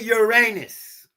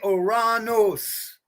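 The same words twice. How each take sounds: First: It sounds like 'your anus'. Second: It does not sound like 'your anus'. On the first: This is how other people say it. The speaker calls it wrong. "they say Uranus, okay? But I don't like talking about y'all's assholes" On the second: This is the speaker's own preferred form. The speaker calls it right. "When I say Uranus"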